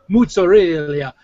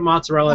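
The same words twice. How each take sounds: First: It is said with an Italian-style pronunciation. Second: It is said with a plain English pronunciation. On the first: "people suddenly turn Italian for two words" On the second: "instead of mozzarella"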